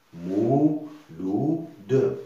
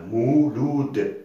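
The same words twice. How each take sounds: First: "Mouloud" slowly split into mou... lou... de; slow three-beat "Mouloud"; syllable by syllable. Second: Said in the usual way. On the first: Shown as a demonstration. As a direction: draw out each syllable of "Mouloud", final d released separately. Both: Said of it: "trois syllabes".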